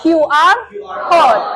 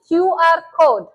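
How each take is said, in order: First: Q R code said loud and separate; model pronunciation. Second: Said in the usual way. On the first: Shown as a demonstration. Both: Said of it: "you need to repeat after me".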